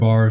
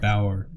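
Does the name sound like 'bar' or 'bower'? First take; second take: bar; bower. First: The name sounds like one syllable, 'bar'. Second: The name sounds like two syllables, 'bower'. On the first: "Am I saying that right?" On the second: "I would go with Bauer"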